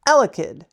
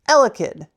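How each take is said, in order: Both takes have the same delivery.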